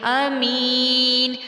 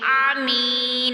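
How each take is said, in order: First: It begins with a plain glottal stop. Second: It begins with a throaty 'ain' sound. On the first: The speaker calls it right. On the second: The speaker calls it wrong.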